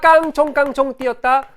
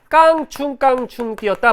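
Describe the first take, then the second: First: The second syllable has an o vowel. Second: The second syllable has a u vowel. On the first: It keeps the old vowel-harmony form. The speaker calls it wrong. "상당히 많은 친구들이 깡총깡총 하는데 여러분들 지금 중세 시대에 살고 있는 거 아니죠?" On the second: It is the current standard form. The speaker calls it right. "깡충깡충이 맞아"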